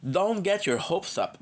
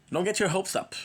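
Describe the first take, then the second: First: Slow, stretched DON'T GET YOUR HOPES UP; drawn-out repeat. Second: Said in the usual way. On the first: Acted. Streamer letting a friend down, slowly drawn out.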